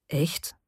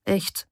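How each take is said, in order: First: Understated wonder, softly rising on "Echt"; mildly surprised question. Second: "Echt" as a statement, without the questioning rise; confirming answer. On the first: Bohdan questions Tocha's confession, mildly surprised. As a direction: ask "Echt" with a rising tune, a little taken aback. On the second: Tocha answers Bohdan's question, simply confirming "Echt". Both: A narrator's reading. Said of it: "fragt Bohdan verwundert".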